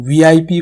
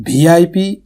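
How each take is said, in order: First: Said in the usual way. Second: "وی آئی پی" starting with bh instead of v; VIP mispronounced. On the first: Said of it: "بولا ہے". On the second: Shown as a demonstration. Teacher asking students about a bad habit, "وی آئی پی" mispronounced with bh. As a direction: turn the v of "وی آئی پی" into aspirated bh. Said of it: "سننے میں بہت ہی برا لگتا ہے".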